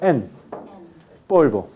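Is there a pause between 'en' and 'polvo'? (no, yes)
yes. A pause separates the two words; the nasal is n. "Cuando hay pausa"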